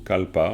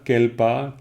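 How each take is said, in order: First: The first vowel sounds like 'a'. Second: The first vowel sounds like 'e'. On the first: This is how it is commonly said, following the source word. "on prononce bien souvent Kalpa" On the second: This is the regular reading of the spelling. "Kelpa, normalement"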